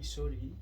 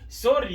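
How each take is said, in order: First: It is said in a soft, gentle tone. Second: It is said in a harsh, aggressive tone. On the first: The apology is respectful. The speaker calls it right. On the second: The apology sounds confrontational. The speaker calls it wrong.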